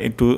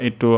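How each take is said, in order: The two takes are said the same way.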